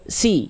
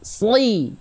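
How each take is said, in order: First: The s is said with a plain, light tongue. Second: The s is said with the tongue pulled back. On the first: "Si biasa dulu" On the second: "Sekarang lidahnya dorong ke dalam"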